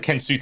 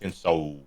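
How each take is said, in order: First: The last syllable sounds like 'sue'. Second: The last syllable sounds like 'soul'. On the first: The speaker calls it wrong. "not Sue like soothe" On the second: The speaker calls it right. "Kenso like soul"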